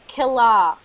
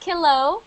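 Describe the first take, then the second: First: The second syllable ends in a reduced 'uh' vowel. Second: The second syllable ends in a full 'oh' vowel. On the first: The speaker calls it right. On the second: The speaker calls it wrong. "Not kilo"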